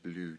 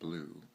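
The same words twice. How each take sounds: First: Blue is said with a slightly altered pronunciation. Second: Blue is said like the ordinary color word. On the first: The speaker calls it right. "There's a slight pronunciation difference when you say blue" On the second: The speaker calls it wrong. "You don't say it blue, like the color blue"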